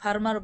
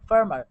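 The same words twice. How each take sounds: First: The r sound is pronounced strongly. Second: The r sound is barely pronounced. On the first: The speaker calls it wrong. "অবশ্যই ফার্মার বলবেন না, এটা একেবারে বাঙালি হয়ে যায়।" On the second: The speaker calls it right. "এই জায়গায় রয়ের উচ্চারণ কিন্তু আমি একেবারে হালকা করে ধরছি।"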